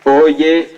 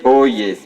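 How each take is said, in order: First: Loud rising town crier call "Oyez". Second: "oyez" called out, falling to close; town crier. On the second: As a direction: finish the "oyez" call with a falling tune. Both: Acted. Official opens ceremony proclamation.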